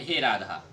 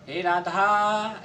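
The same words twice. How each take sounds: First: Said in the usual way. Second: हे राधा with आ drawn out to three beats; stretched call. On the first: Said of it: "मतलब simple में बोलते हैं". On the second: Shown as a demonstration. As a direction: call हे राधा with a long held आ. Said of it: "हे राधा ऐसे करके जो बोलते हैं ना". (राधा का आ तीन मात्रा तक खींचकर)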